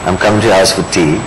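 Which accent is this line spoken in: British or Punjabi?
British. It is spoken in a British accent. "Do it in a British accent"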